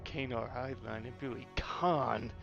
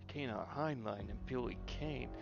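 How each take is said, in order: First: The last name is said like 'Khan'. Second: The last name is said like 'Kane'. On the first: The actor corrected the name after the slip. The speaker calls it right. "Oh god damn it!" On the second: An actor misread the name in the line. The speaker calls it wrong. "pronounced it Billy Kane"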